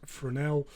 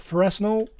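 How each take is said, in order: First: The word is said with French pronunciation. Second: The word is said the way it is spelled. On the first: "it's a French word, so you pronounce it as Fresnel" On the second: "You spell it as a Fresnel"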